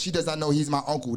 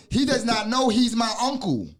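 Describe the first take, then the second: First: Fast, even "He does not know he's my uncle"; rapid recitation. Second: Higher, deliberate "He does not know he's my uncle"; emphatic teaching. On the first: Teacher running through the five degrees, rapid recitation. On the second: Teacher explaining the uncle in the degree, emphatic. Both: Real, not acted.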